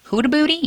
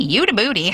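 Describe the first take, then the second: First: "Huda Booty" with an H start, pitched high; questioning pronunciation. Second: "Huda Booty" starting with a Y sound; corrected pronunciation. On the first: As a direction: try "Huda Booty" as HOO-da, higher and unsure. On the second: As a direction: say "Huda Booty" as YOO-da, settled. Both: Shown as a demonstration. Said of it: "you say it wrong all the time".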